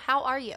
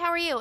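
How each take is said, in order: First: It is asked sincerely, with real interest. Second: It is asked casually, as a formality.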